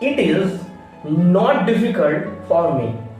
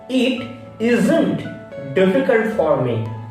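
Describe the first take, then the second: First: The words are said in full, uncontracted. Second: The words are squeezed into one contracted form.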